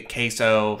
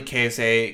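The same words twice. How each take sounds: First: Said in the usual way. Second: Queso ending in a "say" sound; queso pronounced KAY-say, rhyming with essay. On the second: Real, not acted. Says queso two ways, gets corrected.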